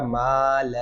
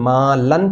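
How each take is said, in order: First: The word ends with a long vowel. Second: The word ends with an n sound. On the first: The reader stops on this word. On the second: The reading continues without stopping.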